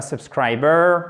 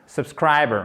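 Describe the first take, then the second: First: Subscriber with a full, drawn-out BER; over-pronounced ending. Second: Subscriber with a short final schwa, no R; reduced ending. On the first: Teacher shows what it is not, over-pronounced ending on subscriber. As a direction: give the last syllable of subscriber too much weight. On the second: Teacher models native pronunciation, reduced ending on subscriber. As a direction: stress SCRI and swallow the end of subscriber. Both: Shown as a demonstration. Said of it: "c'est même pas subscriber".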